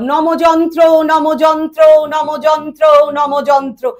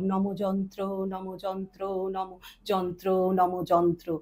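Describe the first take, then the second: First: It is spoken at a raised high pitch. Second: It is spoken at a lowered deep pitch. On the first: "তারপরে আপে বললাম" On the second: "আবার লোতে বললাম"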